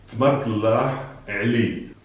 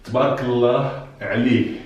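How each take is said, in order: First: Said in the usual way. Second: First careful take; blessing phrase demo. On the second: Shown as a demonstration. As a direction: present "Tabarakallah Ali" as the set phrase. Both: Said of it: "exclusively this expression".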